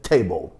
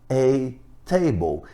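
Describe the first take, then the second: First: It is fast, with the article nearly swallowed. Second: It is slow, with the article clearly pronounced. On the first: "na velocidade normal, você diz table" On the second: "vagarosamente, daí sim o artigo aparece"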